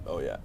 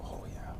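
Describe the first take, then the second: First: Said in the usual way. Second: Whispered. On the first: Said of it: "repeated plain". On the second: Real, not acted. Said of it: "whispered then plain".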